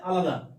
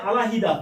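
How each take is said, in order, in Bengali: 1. মাঝখানে কোনো হ-এর ধ্বনি শোনা যায় না। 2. মাঝখানে হ-এর ধ্বনি শোনা যায়। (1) "হ চলে গেছে" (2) "তাহলে এই যে আলাহিদা"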